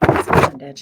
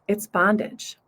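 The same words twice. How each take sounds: First: It is whispered. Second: It is said aloud in full voice.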